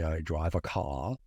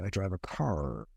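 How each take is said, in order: First: An English accent with no r in car. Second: An American accent with the r in car. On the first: "the English do not pronounce their R's" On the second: "Americans say, ... and continue to pronounce the R"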